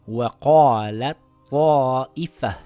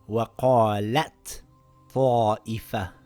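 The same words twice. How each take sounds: First: The t is dropped into the following emphatic t. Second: The t is pronounced separately. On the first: The speaker calls it right. "The ta gets dropped and it reads" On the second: The speaker calls it wrong. "and not"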